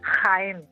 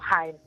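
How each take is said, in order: First: The J is a rasping sound in the throat. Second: The J is a soft breathy h sound. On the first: This is how eastern Andalusians and central Spaniards say it. "en absoluto escucharía a un sevillano decir Jaén" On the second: This is how western Andalusians such as Sevillians say it. "sino Jaén"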